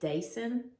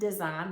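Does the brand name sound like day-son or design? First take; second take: day-son; design. First: The name sounds like day-son. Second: The name sounds like the word design. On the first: "I've always pronounced it Dason" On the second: "I've also heard it pronounced design"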